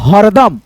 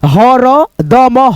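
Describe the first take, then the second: First: The word is said smoothly with no pause. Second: The word is split into two parts with a pause. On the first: "मिला करके हम लोग पढ़ लेंगे" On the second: "आधा आधा करके हम लोग बांट करके पढ़ लेते हैं"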